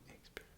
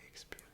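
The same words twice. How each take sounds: No difference in how they are said.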